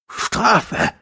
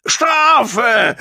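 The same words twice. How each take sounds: First: High, strained gasp. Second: High, loud drawn-out howl. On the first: Gong still demands punishment though cowed, gasping. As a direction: squeeze the word out high, short of shouting. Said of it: "keuchte er". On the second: Gong demands punishment in the fight, howling. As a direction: howl it out shrilly, at full voice. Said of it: "heulte Gong". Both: A narrator's reading.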